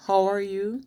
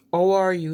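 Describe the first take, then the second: First: Said in the usual way. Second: "How" said as "ow", no H; dropped H. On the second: Shown as a demonstration. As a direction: start "How" straight on the vowel. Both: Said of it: "Instead of".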